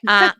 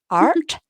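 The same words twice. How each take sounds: First: The word is said in a British accent. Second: The word is said in an American accent. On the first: "We say art" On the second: "I should probably say that with an American accent"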